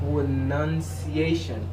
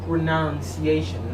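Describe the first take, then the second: First: The second syllable sounds like 'nun', not 'noun'. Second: The second syllable sounds like the word 'noun'. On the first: The speaker calls it right. "There is no noun in this word. Correctly, you must say pronunciation. Like that" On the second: The speaker calls it wrong. "I usually hear some people say pronunciation. No, it's not correct"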